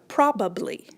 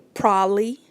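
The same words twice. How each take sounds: First: The word is said in full with three syllables. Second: The word is shortened to two syllables, prolly. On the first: "other people pronounce it just as it's stated here" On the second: "Some people say probably, P R O L L Y"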